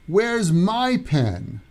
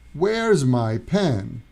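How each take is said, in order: First: The word 'my' is stressed. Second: The word 'my' is unstressed. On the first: "I'm emphasizing my" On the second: "the stress goes down on the pronouns"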